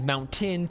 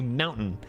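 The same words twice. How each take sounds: First: The middle T is a clear t. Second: The middle T is a glottal stop.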